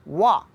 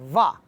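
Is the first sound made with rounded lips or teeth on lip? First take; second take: rounded lips; teeth on lip. First: The lips are rounded without touching the teeth. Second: The upper teeth touch the lower lip. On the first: The speaker calls it right. "वाव को हमेशा गोल होंठ करके पढ़ना है" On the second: The speaker calls it wrong. "ऊपर के जो दांत हैं उनको ... निचले होंठ ... से लगा के वा पढ़ते हैं, तो ये गलत है"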